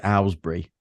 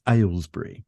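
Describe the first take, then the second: First: Aylesbury said the London way, first syllable flattened; London pronunciation. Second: Aylesbury said the taught way, first syllable as "ales"; correct pronunciation. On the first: Showing the elocution story's old way, Aylesbury in a London accent. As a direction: say Aylesbury as a London kid would. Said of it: "my London accent meant that I pronounced things like". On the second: Recalling the teacher's lesson, Aylesbury pronounced correctly. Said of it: "convince me of the right way". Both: Shown as a demonstration.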